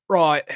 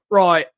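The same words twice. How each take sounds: No difference in how they are said.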